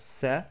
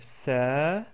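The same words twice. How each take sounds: First: The vowel after the s is short. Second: The vowel after the s is long. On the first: "Avec fatha, on prononce sa" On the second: "Avec la voyelle longue alif"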